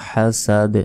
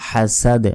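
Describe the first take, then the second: The two takes are said the same way.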